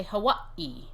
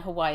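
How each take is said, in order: First: Hawaii with a little catch before the final ee; slow Hawaii, cut short before the last vowel; islanders' pronunciation. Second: Hawaii said huh-WHY-ee, slowly; stretched WHY in Hawaii; common mainland pronunciation. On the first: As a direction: break Hawaii as huh-WAH, stop, EE. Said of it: "I know that people from Hawaii do a little, they say". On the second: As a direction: glide smoothly through the middle of Hawaii, no break. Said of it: "Hawaii is pronounced Hawaii". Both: Shown as a demonstration.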